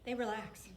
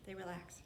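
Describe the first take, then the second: First: Said in the usual way. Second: Soft relaxed echo. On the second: Shown as a demonstration. Preacher softly repeating to the congregation, hushed. Softer repeat, much quieter.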